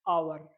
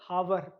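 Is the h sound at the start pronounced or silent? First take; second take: silent; pronounced. First: The word begins directly with a vowel sound. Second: The word begins with an audible h sound. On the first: The speaker calls it right. "H will be silent" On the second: The speaker calls it wrong. "आप लोग यही पढ़ोगे ना"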